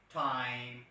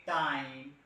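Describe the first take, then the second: First: "time" with a breathy, aspirated alveolar t; aspirated Western t. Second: "time" with a hard, unaspirated retroflex t; Indian retroflex t. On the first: Trainer demos the Western t in "time". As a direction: Western "time", puff of air on t. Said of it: "like American or Britishers". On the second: Trainer demos how Indians say time, retroflex t. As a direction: Indian "time", tongue tip curled back. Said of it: "we people say time". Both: Shown as a demonstration.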